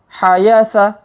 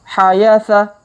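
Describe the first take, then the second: The two takes are said the same way.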